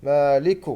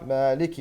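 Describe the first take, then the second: First: مالك said with damma on the كاف; wrong مالك with damma. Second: مالك said with kasra on the كاف; correct kasra. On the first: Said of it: "والخطأ الشائع هو". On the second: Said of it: "والصح". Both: Shown as a demonstration.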